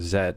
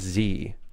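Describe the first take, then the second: First: The letter is said the Canadian way, 'zed'. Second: The letter is said the American way, 'zee'.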